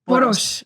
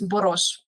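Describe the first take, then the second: First: The final consonant sounds like plain s. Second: The final consonant sounds like sh. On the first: The speaker calls it wrong. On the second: The speaker calls it right. "the S is pronounced as like S H"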